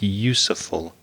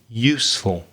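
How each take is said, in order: First: The word is said with three syllables. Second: The word is said with two syllables. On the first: The speaker calls it wrong. "you added an extra syllable to the word useful. It sounded like useful" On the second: The speaker calls it right. "the correct pronunciation, only two syllables"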